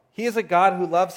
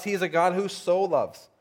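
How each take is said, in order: First: Said in the usual way. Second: "so" set apart with emphasis; stress on SO. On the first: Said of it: "sometimes we just gloss over". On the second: Shown as a demonstration. Preacher restating who God is, emphasis on "so". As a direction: lean on the word "so" before "loves". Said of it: "There's an emphasis in this verse".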